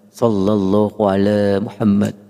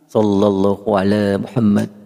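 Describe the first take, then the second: The two takes are said the same way.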